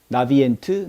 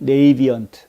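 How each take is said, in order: First: The name begins with a 'nah' sound. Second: The name begins with a 'nay' sound. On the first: The speaker calls it wrong. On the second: The speaker calls it right.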